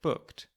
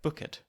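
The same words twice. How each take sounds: First: Said in the usual way. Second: "booked" in two syllables, "book-ed"; old pronounced E. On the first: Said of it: "The E used to be pronounced". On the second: Shown as a demonstration. Narrator showing the older English form, E pronounced. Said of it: "would have been something like booked".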